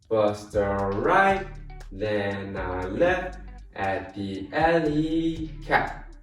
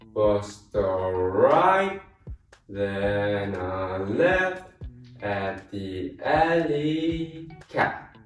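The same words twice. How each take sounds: First: It is said fast. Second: It is said slowly.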